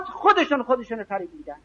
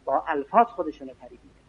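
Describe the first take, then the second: First: Higher first pass, stress on خودشون; pitched-up emphatic delivery stressing خودشون; emphatic statement. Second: Murmured quick restatement; quiet aside. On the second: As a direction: drop the voice and hurry through الفاظ as an aside. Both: Acted. Preacher repeats a key phrase.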